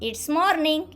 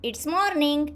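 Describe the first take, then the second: First: It is said as one short contracted syllable. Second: It is said as one short contracted syllable.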